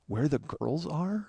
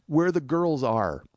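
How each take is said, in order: First: Slow, soft questioning rise on "are"; teasing echo. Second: Slow, halting imitation of an embarrassed friend; sheepish imitation. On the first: Retold or imitated. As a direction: mimic his botched line to needle him. Teasing echo of friend's botched line. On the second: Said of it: "Jeff looks down sheepishly".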